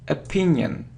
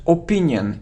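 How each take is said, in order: First: The word begins with a weak uh vowel. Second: The word begins with a full, non-uh vowel. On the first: The speaker calls it right. "it's a, opinion" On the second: The speaker calls it wrong. "It isn't opinion"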